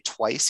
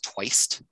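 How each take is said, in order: First: The word ends with a plain 's' sound. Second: The word ends with an added 't' sound. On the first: "he doesn't say twice" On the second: "He says twiced"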